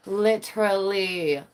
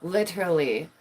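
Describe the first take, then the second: First: Slow drawn-out Literally. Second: Said in the usual way. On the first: Shown as a demonstration. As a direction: stretch out Literally. slowly and deliberately.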